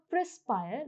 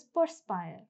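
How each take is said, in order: First: "perspire" said as "prespire", R before the E; teacher shows the mistake; wrong pronunciation. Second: "perspire" with PER first, per-spire; teacher gives the right form; correct pronunciation. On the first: Teacher demonstrating a common mistake, pre-spire. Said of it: "The word is not perspire". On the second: Teacher correcting students, per-spire. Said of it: "the word is perspire". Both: Shown as a demonstration.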